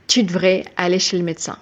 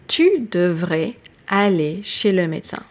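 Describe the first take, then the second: First: Part of devrais is dropped, said quickly. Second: Every syllable of devrais is fully pronounced.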